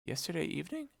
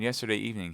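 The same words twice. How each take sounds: First: High, hushed incredulous echo; surprised question. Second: Said in the usual way. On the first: A narrator's reading. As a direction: repeat it softly, rising in disbelief. Echoes the news as a question.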